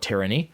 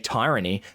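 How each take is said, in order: First: The first syllable sounds different from tyrant. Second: The first syllable sounds like the start of tyrant. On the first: This is how others say it. The speaker calls it wrong. "not a tyrant is committing tyranny" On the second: This is how it is said in Australia. The speaker calls it right. "In Australia, I believe we say tyranny"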